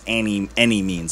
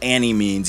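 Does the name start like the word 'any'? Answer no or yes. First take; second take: yes; no. First: The name begins like the word 'any'. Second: The name does not begin like the word 'any'. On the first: The speaker calls it right. "like any means necessary" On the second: The speaker calls it wrong. "Not Annimeanz, even though it's spelled with that big capital A"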